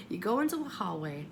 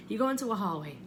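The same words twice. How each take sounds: The two takes are said the same way.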